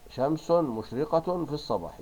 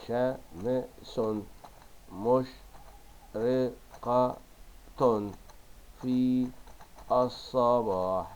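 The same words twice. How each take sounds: First: Loud, higher, connected "شمس مشرقة في الصباح"; model sentence reading. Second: Very slow, chopped "شمس مشرقة في الصباح"; stretched, separated dictation of "شمس مشرقة في الصباح"; dictating syllable by syllable. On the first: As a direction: read "شمس مشرقة في الصباح" as one phrase, endings sounded. Teacher reads sentence, then dictates it. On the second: Same sentence dictated while writing. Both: Shown as a demonstration.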